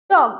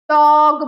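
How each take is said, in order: First: Said in the usual way. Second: ডগ with the vowel stretched long and loud; drawn-out wrong pronunciation. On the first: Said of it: "কতটা stress আমাকে দিতে হবে". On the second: Shown as a demonstration. Teacher showing students how not to say it, ডগ overstretched. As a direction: hold ডগ on one long, level, loud note. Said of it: "ডগ বলি না".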